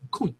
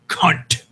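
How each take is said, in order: First: The word sounds soft, round and relaxed. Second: The word sounds hard, sharp and clearly enunciated. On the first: The word sounds almost affectionate. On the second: The word sounds hateful.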